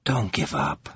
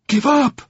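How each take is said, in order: First: Low, quiet pleading, half against himself; torn, soft plea. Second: High, sharp, scornful echo of his words; virulent gasp. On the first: Covenant pleading quietly with Atiaran, torn and soft. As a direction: beg her softly while doubting yourself. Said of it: "in a voice full of self-contradicting pleas". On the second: Atiaran scorning Covenant's plea, high and furious. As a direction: fling the words back at him in outrage. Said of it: "she gasped in virulence". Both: A narrator's reading.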